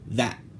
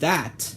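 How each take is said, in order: First: The final t has no audible release. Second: The final t is released with audible air. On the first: "there will be no audible release of the air" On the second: "instead of saying the word that, like how I just said it"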